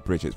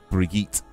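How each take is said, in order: First: The name is said with an English pronunciation. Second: The name is said with a European pronunciation. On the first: "we say Bridget in, in England because we're very British" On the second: "it looks a bit more European"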